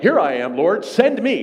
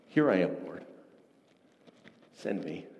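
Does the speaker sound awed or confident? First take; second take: confident; awed. First: It is said in a confident, eager tone. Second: It is said in an awed, hesitant tone. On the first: The speaker is eager to take on the task. The speaker calls it wrong. "I've often thought, like" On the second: The speaker feels the weight of the task. The speaker calls it right. "As he recognized the awesome nature of what God was calling him to"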